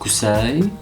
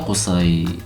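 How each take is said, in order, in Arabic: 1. يبدأ بـ K أمامية و S عادية. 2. يبدأ بـ Q عميقة من الحلق و S مفخمة. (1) "ما علموكي مخارج الحروف يا ممثلتنا؟" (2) "القا من هون، قا، بتحسي شي بحلقك"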